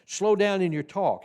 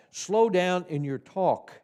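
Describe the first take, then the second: First: Said in the usual way. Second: Slow, deliberate read of the line; slowly. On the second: Shown as a demonstration. Teacher reading the tip slowly to trainees. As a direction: say it slowly, practising what it says. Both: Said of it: "put in the word talk".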